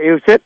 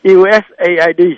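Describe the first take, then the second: First: The acronym is said the older Vietnamese way. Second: The acronym is said the American way. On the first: This is what it was called in the past. "Hồi xưa mình gọi USIT" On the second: This is how it is read by American stations today. "đài Mỹ thì nó đọc là USAID"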